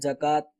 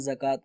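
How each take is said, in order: First: The word begins with a 'j' sound. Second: The word begins with a 'z' sound. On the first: This is how many everyday speakers say it. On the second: This is the proper form of the word.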